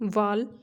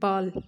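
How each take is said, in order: First: The word begins with a v sound. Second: The word begins with a b sound. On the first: This is the standard form. "ਜਿਵੇਂ ਵਾਲ" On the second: This is the Doabi dialect form. "ਵਾਲ ਦੀ ਜਗ੍ਹਾ ਤੇ ਬੋਲਦੇ ਹਾਂ ਬਾਲ"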